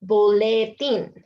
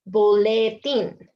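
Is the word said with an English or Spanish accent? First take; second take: Spanish; Spanish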